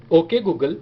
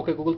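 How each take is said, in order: First: Measured, projected wake phrase for a phone; voice-assistant command tone on "okay Google"; trained wake-word tone. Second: Said in the usual way. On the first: Shown as a demonstration. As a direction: say "okay Google" deliberately and firmly, drawn out. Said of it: "उसी tone में फिर से बोलूँगा जिस tone में मेरा phone समझता है". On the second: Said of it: "अभी मैं नॉर्मल बोल रहा हूँ".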